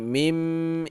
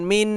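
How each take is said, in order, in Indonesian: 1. Kata ini berakhir dengan bunyi m. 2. Kata ini berakhir dengan bunyi n. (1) "tapi mim. Ini iqlab" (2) "Ini bukan min"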